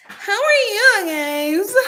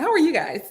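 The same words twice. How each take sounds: First: High, loud, stretched-out greeting; drawn-out greeting. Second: Said in the usual way. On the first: Pretend. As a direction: draw it out slowly, pitched way up. Same greeting replayed drawn out.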